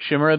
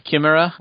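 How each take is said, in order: First: Chimera begun with a SH sound, short i; soft SH pronunciation. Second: Chimera begun with a hard K, short i; hard K pronunciation. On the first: Giving the other side's version, Chimera with soft SH. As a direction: say Chimera as "SHIM-er-uh". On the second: Offering colleagues a name option, Chimera with a hard K. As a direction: say Chimera as "kih-MEH-ruh". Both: Shown as a demonstration. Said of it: "depending on which side of the room".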